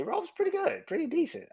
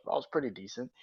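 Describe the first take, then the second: First: Much higher sing-song; squeaky high-pitched mock praise; mock high verdict. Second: Said in the usual way. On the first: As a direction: sing it up high, tongue in cheek. Teasing rating of Raw.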